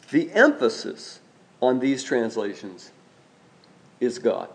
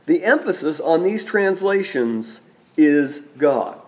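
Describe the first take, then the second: First: "The emphasis", pause, "on these translations", pause, "is God" dropping softer at the end; phrase split by pauses. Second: Said in the usual way. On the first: Shown as a demonstration. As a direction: break it into three weighted chunks and let each land. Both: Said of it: "The emphasis is on God".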